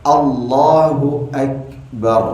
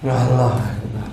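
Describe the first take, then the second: First: A short vowel links Allah to Akbar. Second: Allah runs into Akbar with no vowel between. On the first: The takbir is said carefully. The speaker calls it right. "Ucapannya Allahu Akbar" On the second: The takbir is said carelessly. The speaker calls it wrong. "Ada imam asal takbir aja"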